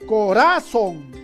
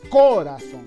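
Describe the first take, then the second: First: The stress is on the middle syllable. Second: The stress is on the first syllable. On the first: "quizás sea grave" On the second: "no decimos corazón, por lo tanto no puede ser esdrújulo"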